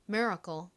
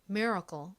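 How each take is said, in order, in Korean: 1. 미국식 억양으로 발음해요. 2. 미국식 억양으로 발음해요.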